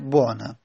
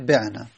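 First: The first vowel is a u. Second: The first vowel is an i. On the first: "بر لغت قوله میشه بعنا" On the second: "بر لغت قیله میشه بعنا"

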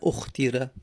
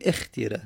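First: The word begins with a 'u' vowel. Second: The word begins with an 'i' vowel. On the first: The speaker calls it wrong. "نه اختیره" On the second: The speaker calls it right. "پس الف و کسره میدیم، میگیم اختیره"

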